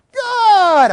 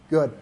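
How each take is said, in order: First: Loud, high, long cheer; happy, excited. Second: Said in the usual way. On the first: Shown as a demonstration. Trainer demonstrating praise alone on video, excited cheer. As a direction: burst out with delighted praise. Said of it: "Happy, excited". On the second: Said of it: "Calm it down".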